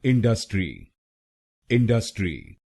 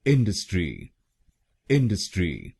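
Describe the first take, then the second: First: इंडस्ट्री with stress on the second syllable डस; इंडस्ट्री said the common wrong way, in-DUS-tri; wrong Indian stress. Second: इंडस्ट्री with stress on the first syllable इन; इंडस्ट्री said IN-dus-tri with a quick middle; इंडस्ट्री said correctly, stress up front. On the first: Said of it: "तो कैसे बोलते हैं लोग इस शब्द को?". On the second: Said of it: "अब सुनते हैं सही pronunciation". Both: Shown as a demonstration.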